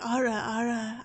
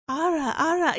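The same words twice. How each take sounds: First: "Ara, Ara" dropped to a deeper pitch. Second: Higher, louder attempt at an anime-style "Ara, Ara"; raised-pitch practice take. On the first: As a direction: try the catchphrase lower down. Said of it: "like, a deeper". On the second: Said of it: "I have to get, like, a deeper". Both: Shown as a demonstration.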